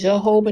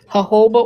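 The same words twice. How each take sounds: First: It begins with a J sound. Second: It begins with an H sound. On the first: This is how other people say it. "They pronounce it J" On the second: This is the speaker's own way of saying it. "I don't"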